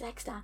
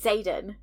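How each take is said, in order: First: The name begins with the letter name 'eks'. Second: The name begins with a 'z' sound. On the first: It is a misreading made in one's head. "I was saying X-Dan in my head" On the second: It is the pronunciation used on the audiobook. "on the audio they say Zayden"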